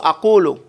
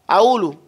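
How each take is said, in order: First: The middle q sound is clearly pronounced. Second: The middle q sound is dropped. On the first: The speaker calls it right. "As opposed to" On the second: The speaker calls it wrong. "They don't pronounce it"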